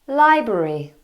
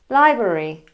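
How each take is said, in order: No difference in how they are said.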